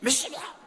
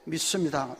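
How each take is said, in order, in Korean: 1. 이 단어는 이상하고 과장되게 말했습니다. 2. 이 단어는 평범하고 차분하게 말했습니다. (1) "발음도 한 번씩 이상하게 좀 해보고" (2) "진짜로 믿으면 이렇게 믿습니다"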